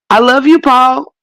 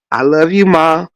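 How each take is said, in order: First: High, sugary family goodnight; Waltons family goodnight. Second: Said in the usual way. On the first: Retold or imitated. Mocking The Waltons family with a high sugary goodnight. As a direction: coo it like a sweet TV family. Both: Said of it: "And in that movie".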